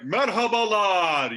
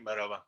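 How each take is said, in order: First: It is said in a jolly, lively way. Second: It is said in a plain, flat way.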